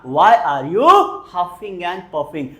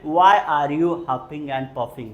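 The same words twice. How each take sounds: First: Slow, emphatic repeat. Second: Slow, clear question; slow model question. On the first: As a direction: echo it slowly. (धीमी दोहराहट) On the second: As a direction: pronounce it slowly for learners. (धीमा साफ़ प्रश्न) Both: Shown as a demonstration. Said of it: "बोलेंगे जरा".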